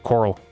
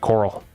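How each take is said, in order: No difference in how they are said.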